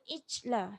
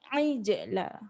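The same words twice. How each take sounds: First: The j sound is flat, without a bounce. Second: The j sound has an echoing bounce. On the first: The speaker calls it wrong. "jangan baca ijla, salah" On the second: The speaker calls it right. "Jim dia qalqalah"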